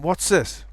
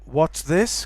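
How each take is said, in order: First: The word this starts with an s sound. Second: The word this starts with a th sound. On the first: "the to z or s" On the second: "what's this can become"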